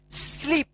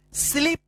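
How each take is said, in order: Both takes have the same delivery.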